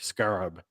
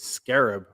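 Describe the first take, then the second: First: It is said in a British pronunciation. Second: It is said in the speaker's usual pronunciation.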